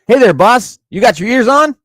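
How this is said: It is read in a put-on Robin voice.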